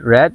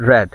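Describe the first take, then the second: First: The vowel is short, like 'red'. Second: The same.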